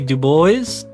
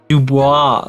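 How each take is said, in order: First: The name is said in a plain way. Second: The name is said in a fancy way. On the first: This is how the speaker usually says it. "maybe I've been saying it wrong this whole time" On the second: This is how others said it. "They said it real fancy"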